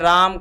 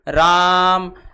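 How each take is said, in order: First: The vowel is held for a normal length. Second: The vowel is drawn out about three times longer. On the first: "जैसे हमने राम कहा" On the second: "तिगुना समय इसमें लगता है"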